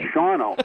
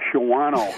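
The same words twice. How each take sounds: First: The A vowel is reduced, not fully pronounced. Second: The A vowel is fully pronounced. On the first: The speaker calls it right. "no, it's Shawano" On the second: The speaker calls it wrong. "you're going up to Shawano"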